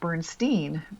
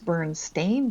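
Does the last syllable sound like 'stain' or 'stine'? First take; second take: stine; stain. First: The last syllable sounds like 'stine'. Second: The last syllable sounds like 'stain'. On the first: This is how people remember it. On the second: This is the spelling shown now.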